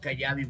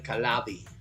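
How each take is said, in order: First: The double L sounds like a Y. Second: The double L sounds like an L. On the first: The speaker calls it wrong. "they say no Kayabi" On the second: The speaker calls it right. "Italians also the double L uh pronounce like uh, the L"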